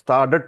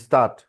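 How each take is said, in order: First: A d sound is pronounced in the word. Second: No d sound is pronounced in the word. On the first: The speaker calls it wrong. "डी silent रहता है, डी pronounce, स्टार्डट नहीं है ना" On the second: The speaker calls it right. "डी silent रहता है"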